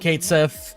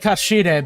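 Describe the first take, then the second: First: The name sounds like 'Kate Sith'. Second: The name sounds like 'Kashide'. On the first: This is what people commonly call him. "they've insisted on calling him Kate Sith" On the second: This is the original pronunciation. "I would say Kashide"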